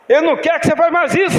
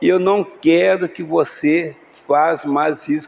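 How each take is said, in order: First: It is said in a harsh, confrontational tone. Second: It is said in a calm, gentle tone. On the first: The correction is an accusation of the other person. The speaker calls it wrong. "Outro jeito" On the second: The correction is made with care for the marriage. The speaker calls it right. "com outro tom de voz"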